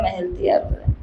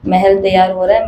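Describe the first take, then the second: First: महल तैयार हो रहा है said much softer, dying away; a soft, fading repeat; fading murmur. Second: Said in the usual way. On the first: Shown as a demonstration. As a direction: let it trail off softly like a secret.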